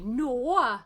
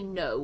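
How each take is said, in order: First: It is said in a strong Welsh accent. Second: It is said in a neutral accent. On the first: "I say no" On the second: "sometimes I don't say no"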